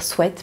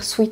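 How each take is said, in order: First: The word ends with an 'eh' vowel sound. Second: The word ends with an 'ee' vowel sound. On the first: This is the expected standard pronunciation. The speaker calls it right. "on est censé dire souhaite" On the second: This is the habitual childhood pronunciation. The speaker calls it wrong. "j'ai toujours entendu et prononcé sweet"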